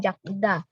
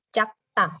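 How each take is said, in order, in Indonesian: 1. Konsonan di tengah terdengar seperti d lembut. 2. Konsonan di tengah terdengar seperti t tegang. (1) "bukan jakda" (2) "digetnya jadi sang diget"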